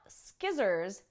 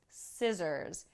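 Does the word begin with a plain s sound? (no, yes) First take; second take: no; yes. First: The word does not begin with plain s. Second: The word begins with a plain s sound. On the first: The speaker calls it wrong. "Not skizzers" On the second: The speaker calls it right. "we have the S sound for the first S and C and a Z sound for the next two S's"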